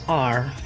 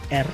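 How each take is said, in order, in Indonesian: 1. Nama huruf itu diawali dengan vokal 'ah'. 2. Nama huruf itu diawali dengan vokal 'eh'. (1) "kalau bahasa Inggrisnya itu R. A dan R" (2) "kalau kita bahasa Indonesianya R"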